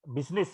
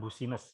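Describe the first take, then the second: First: The word is said short, in two syllables. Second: The word is said longer, following the spelling. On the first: The speaker calls it right. "bacanya cuman uh, bisnis ya" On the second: The speaker calls it wrong. "bukan business ya"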